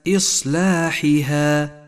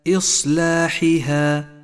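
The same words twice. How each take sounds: The two takes are said the same way.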